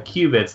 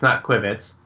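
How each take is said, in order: First: The first syllable sounds like 'cue'. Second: The first syllable sounds like 'quib'. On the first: The speaker calls it right. "They're pronounced uh, qubits" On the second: The speaker calls it wrong.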